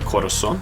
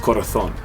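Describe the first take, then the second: First: It is said in a Central American Spanish accent. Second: It is said in a Spain Spanish accent. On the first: "in Central America would be corazón" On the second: "it's corazón"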